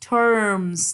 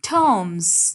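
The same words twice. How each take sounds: First: The word is said with an R sound. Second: The word is said without an R sound. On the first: "like there has to be R sound in between" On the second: "British English में we do not pronounce R"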